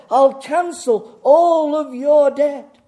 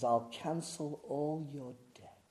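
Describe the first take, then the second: First: Slow, high and very loud proclamation; big booming announcement. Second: Soft and slow; hushed, subdued offer. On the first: Preacher voicing a bank's dream offer to congregation, booming proclamation. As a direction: draw out the offer at full volume. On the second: Preacher voicing Jesus's offer after the bank's, hushed delivery. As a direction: say it quietly, letting each word sit. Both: Acted.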